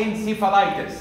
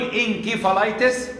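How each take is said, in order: First: انسيفالايتس said with a soft s sound; انسيفالايتس with s, like "encephalitis"; soft s pronunciation. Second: انكيفالايتس said with a hard k sound; انكيفالايتس with k, like "enkephalitis"; hard k pronunciation. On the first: Lecturer to students, انسيفالايتس said with a soft s. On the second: Lecturer to students, انكيفالايتس said with a hard k. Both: Shown as a demonstration. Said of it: "ممكن يتنطق سي أو كي".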